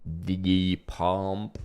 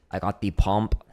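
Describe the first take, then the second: First: Slow, drawn-out mock Austrian accent; Arnold impersonation, slowed down. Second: Hammed-up Austrian accent; bad Arnold impersonation. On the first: Shown as a demonstration. Drummer practicing the impression slowly, mock Austrian accent. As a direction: stretch each word in a fake Austrian accent. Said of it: "I'll work it up slowly". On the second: Drummer with warm forearms joking, bad Austrian accent. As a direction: do a badly faked Austrian accent. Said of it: "That is a horrible Arnold impersonation".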